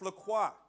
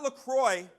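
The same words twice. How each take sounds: First: The name is said the French way. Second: The name is said the anglicized way. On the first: The speaker calls it right. "it's LaCroix. I took French in high school" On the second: The speaker calls it wrong. "it's not LaCroix"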